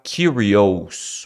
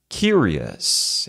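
First: The ending is said with full vowels as spelled. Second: The ending is a short, reduced 'uhs' sound. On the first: The speaker calls it wrong. "Você não vai falar curious" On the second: The speaker calls it right. "É um som de us. Como se fosse A com tio e S"

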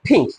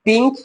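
First: The p has a strong puff of air. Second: The p is plain, without a puff of air. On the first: The speaker calls it right. "বলবো" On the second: The speaker calls it wrong. "না বলে"

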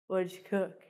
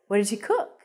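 First: The voice does not rise at the end. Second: The voice rises at the end. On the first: The speaker calls it wrong. "So I wouldn't say" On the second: The speaker calls it right. "I'd say, ... your voice goes up at the end of the question"

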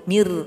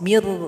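No difference in how they are said.

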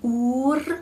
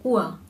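First: The R is pronounced as a consonant. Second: The R is pronounced as a vowel. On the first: The speaker calls it wrong. "Und wir sagen nicht ur" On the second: The speaker calls it right. "sondern ur, ur mit dem vokalisierten R"

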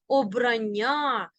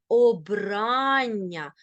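First: The stress is on another syllable. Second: The stress is on the second syllable. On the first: The speaker calls it wrong. "Ні в якому разі не кажи" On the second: The speaker calls it right. "наголос падає на другий склад"

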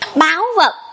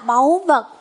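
First: It is said in a Southern Vietnamese accent. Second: It is said in a standard Vietnamese accent. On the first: The speaker calls it wrong. "là cách đọc của giọng miền Nam" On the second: The speaker calls it right. "Nhưng đúng ra là"

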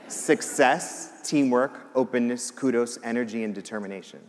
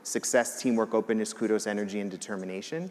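First: The list is said slowly. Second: The list is said at normal speed.

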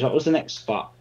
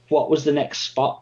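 First: It is said quietly. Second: It is said a bit louder.

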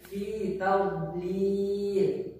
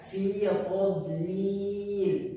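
First: The t sound is light and thin. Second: The t sound is heavy and thick. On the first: The speaker calls it right. "Sekali lagi" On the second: The speaker calls it wrong. "menebalkan huruf ta"

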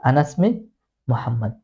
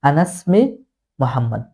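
The two takes are said the same way.

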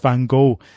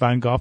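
First: The name is said the American way. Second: The name is said in a non-American way. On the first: "when I was in America... They said it's Van Gogh" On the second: "I mentioned Van Gogh and they said no, they didn't understand"

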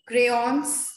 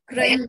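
First: The word ends with an audible S sound. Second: The word ends without an audible S sound. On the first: "can you hear it? Yes" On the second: "can you hear the final S? No"

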